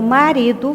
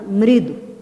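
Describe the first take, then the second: First: The first vowel is fully pronounced. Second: The first vowel is dropped.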